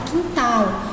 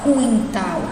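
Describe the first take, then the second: First: No 'w' sound follows the first consonant. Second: A 'w' sound follows the first consonant. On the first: The speaker calls it right. "a gente fala quintal" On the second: The speaker calls it wrong. "a gente não fala quintal"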